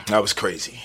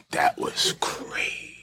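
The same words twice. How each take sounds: First: Said in the usual way. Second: Breathy whispered repeat; whispering. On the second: Shown as a demonstration. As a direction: whisper it slowly.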